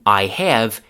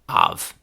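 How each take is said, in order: First: Both words are said fully and separately. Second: The words are shortened into one syllable. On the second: "chewing gum"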